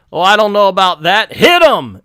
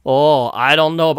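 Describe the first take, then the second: First: Hammed-up put-on Asian accent, louder; mock Asian accent. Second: Plain American take of the line; the wrong accent, American. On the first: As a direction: switch into a jokey Asian accent. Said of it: "I can do Asian accent". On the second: Shown as a demonstration. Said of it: "that's the American".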